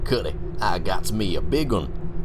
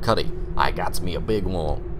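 First: It is read in a Southern US accent. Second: It is read in the speaker's ordinary accent.

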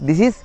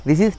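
The two takes are said the same way.

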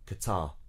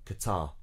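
First: The stress falls on the second syllable. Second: The stress falls on the second syllable.

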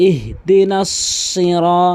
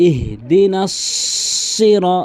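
The two takes are said the same way.

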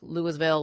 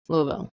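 First: The syllables are said clearly and separately. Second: The syllables are slurred together, mumbled. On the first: The speaker sounds like an outsider. The speaker calls it wrong. "a lot of people like Louisville" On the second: The speaker sounds like a local. The speaker calls it right. "you say it like you have a bunch of marbles in your mouth"

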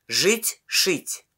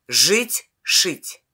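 No difference in how they are said.

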